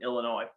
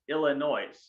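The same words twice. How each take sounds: First: The final S is silent. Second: The final S is pronounced. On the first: The speaker calls it wrong. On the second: The speaker calls it right.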